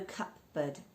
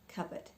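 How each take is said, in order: First: The P sound is clearly pronounced. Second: The P sound is left out. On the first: The speaker calls it wrong. "we're not pronouncing the P, so no cupboard" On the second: The speaker calls it right. "No P"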